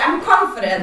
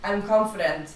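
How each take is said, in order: First: It is said with strong, powerful feeling. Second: It is said flatly, without feeling.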